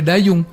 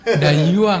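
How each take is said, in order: First: The last syllable is pronounced 'ung'. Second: The last syllable is pronounced 'uang'. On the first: The speaker calls it wrong. "nggak boleh dayung" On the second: The speaker calls it right. "Dayuang tuh katanya"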